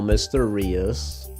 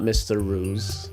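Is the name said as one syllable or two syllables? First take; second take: two syllables; one syllable. First: The name is said with two syllables. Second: The name is said as one syllable. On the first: The speaker calls it right. "So, Mister Rias" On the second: The speaker calls it wrong. "Not Mister Ruse"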